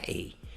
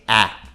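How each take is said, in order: First: The vowel is the long letter-name sound, like 'ay'. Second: The vowel is the short sound, as in 'battle'. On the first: The speaker calls it wrong. "não tem vogal afetando, então não é A" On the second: The speaker calls it right. "Tem que ser A"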